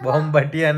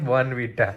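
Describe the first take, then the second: First: The middle sounds like 'mb', said bombatiya. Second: The middle sounds like 'rnv', said Bornvita. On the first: The speaker calls it wrong. "બોમ્બટિયા નહીં" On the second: The speaker calls it right.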